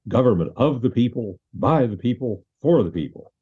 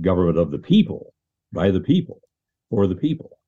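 First: The stress falls on of, by and for. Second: The stress falls on people each time. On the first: The speaker calls it wrong. "You put the emphasis wrong" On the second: The speaker calls it right. "understand the emphasis there on the word people"

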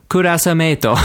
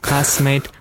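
First: It is said with Japanese sounds and an R. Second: It is said with English sounds and an L. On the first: "Just the pronunciation changes" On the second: "I thought it was the same as classmate"

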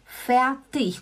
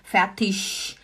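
First: The word ends with a soft ch sound. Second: The word ends with an sh sound. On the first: "como a Creusdete escreveu" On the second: "já é um x"

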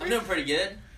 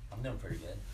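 First: It is said loudly and energetically. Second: It is said quietly and flatly.

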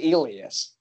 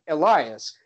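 First: The name is said the Swedish way. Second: The name is said the English way. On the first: "you say this in Swedish, it comes off like the opposite" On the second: "that looks like Elias"

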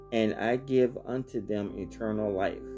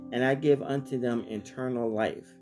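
The two takes are said the same way.

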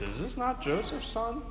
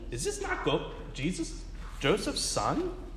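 First: The question sounds doubtful and suspicious. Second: The question sounds amazed, in a folksy voice. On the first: The crowd is questioning him. "you can either read that with amazement or with" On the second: The crowd is amazed at him. "Or you can read like Gomer Powell"

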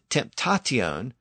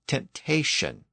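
First: The ending is pronounced with a t sound. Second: The ending is pronounced with an sh sound. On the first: This is the older original form. "the original pronunciation was tion" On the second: This is the later softened form. "It became shion or sion"

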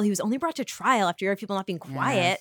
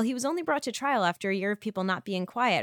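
First: The sentence is said in a condescending tone. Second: The sentence is said in a plain, neutral tone. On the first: The speaker is lecturing someone. "If it was the latter, maybe you're a mansplainer" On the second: A simple factual remark. "So maybe you were like"

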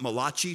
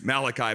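First: The name is said in an Italian-style accent. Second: The name is said in a plain English accent.

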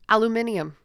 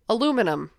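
First: It is said the non-American way. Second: It is said the American way. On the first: The speaker calls it right. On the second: The speaker calls it wrong.

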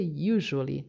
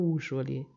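First: The word begins with a "yoo" sound. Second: The word begins with a plain "oo" sound. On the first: The speaker calls it right. "Observa que você fala iu" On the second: The speaker calls it wrong. "não u"

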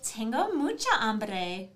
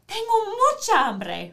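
First: It is said in a Valley Girl voice. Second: It is said in an excited voice.

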